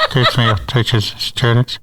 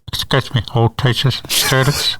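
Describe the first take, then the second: First: Muffled PA announcement, laughing; over the intercom. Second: Muffled PA announcement; over the intercom. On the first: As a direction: announce as if through a school PA. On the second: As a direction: speak as if through a school PA. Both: Retold or imitated. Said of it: "I'd talk like this".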